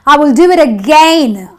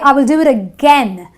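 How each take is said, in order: First: The last vowel sounds like 'ay'. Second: The last vowel sounds like 'eh'. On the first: The speaker calls it wrong. "I don't say" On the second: The speaker calls it right. "the ai gives me the eh sound"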